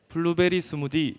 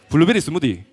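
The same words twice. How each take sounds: First: It is said in a Seoul accent. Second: It is said in a Gyeongsang accent.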